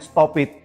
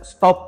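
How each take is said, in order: First: The ending adds an extra "id" syllable. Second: The ending is a plain t sound, one syllable. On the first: The speaker calls it wrong. "bukan stop it" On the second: The speaker calls it right. "Ini dibaca stop"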